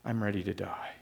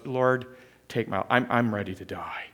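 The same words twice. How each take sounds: First: Fading depressed repeat. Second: Mild depressed voice. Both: Acted. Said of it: "Jonah is so depressed, he goes".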